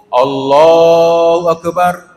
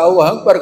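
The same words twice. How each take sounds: First: Slow, drawn-out sung "Allahu Akbar"; chanted, long melodic prayer call; chanted takbir. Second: Said in the usual way. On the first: Retold or imitated. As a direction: chant it like an imam calling the bow. Imam drawing out the takbir.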